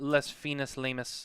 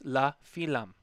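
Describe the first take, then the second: First: The name is said with extra spelled-out syllables. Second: The name is said short, the French way. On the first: The speaker calls it wrong. "not les finis lamus" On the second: The speaker calls it right. "That's how you say it"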